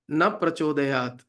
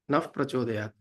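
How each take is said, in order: First: The first word ends in a plain vowel. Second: The first word ends in an f sound. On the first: It asks not to be enlightened. The speaker calls it wrong. "where we say na prachodayat" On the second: It asks to be enlightened. The speaker calls it right. "it should be pronounced as naf prachodayat"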